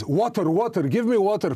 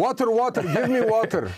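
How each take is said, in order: First: Lightly voiced desperate soldier pleading, a bit higher; a hint of a parched fighter begging; thirsty soldier. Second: A hammed-up parched fighter begging for water; thirsty soldier, hammed up. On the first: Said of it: "Was that the accent?". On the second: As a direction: mock-desperate soldier's cry, much higher. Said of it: "I like that".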